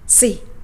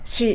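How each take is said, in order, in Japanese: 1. 鋭い'を'の音で始まります。'see'のような音です。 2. 'sh'の音で始まります。'she'のような音です。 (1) "ではなくC、口を横に引いて発音します。" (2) "日本語でC って言うと、彼女という意味のShe に聞こえます。"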